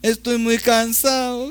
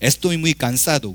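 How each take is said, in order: First: Soft, smooth delivery with the d sound dropped. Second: Crisp, clipped delivery with the d clearly pronounced. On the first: "칠레 사람들은 ... 그렇게 얘기해요. ... D 발음을 안 해" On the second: "아르헨티나 말로 얘기하면 ... 되게 딱딱딱 끊어지죠. 똑 부러져요"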